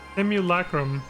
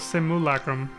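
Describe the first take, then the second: First: The vowel after 'sim' is 'yoo', with a y. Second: The vowel after 'sim' is plain 'oo', no y. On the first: "I guess I just don't put the Y there, myself" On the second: "I do an oo sound instead"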